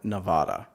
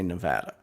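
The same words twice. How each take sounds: First: It is said the Midwestern way. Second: It is said the local West Coast way. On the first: This is how outsiders say it. The speaker calls it wrong. "In the Midwest, I would have said Nevada" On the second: This is how the locals say it. The speaker calls it right. "now that I live on the West Coast, I say Nevada"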